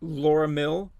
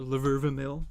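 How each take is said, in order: First: The first name is said as Laura. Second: The first name is said as Laverva. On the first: "but it's spelled with the A's or V's" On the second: "if you want to pronounce it that way"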